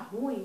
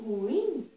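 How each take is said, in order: First: The stress falls on the u sound. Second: The stress falls on the i sound. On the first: The speaker calls it wrong. "Tem gente que fala ruim" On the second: The speaker calls it right. "o acento tônico é mais forte no fonema I"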